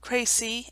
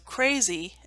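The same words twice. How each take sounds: First: The middle consonant is a hissing s sound. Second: The middle consonant is a buzzing z sound.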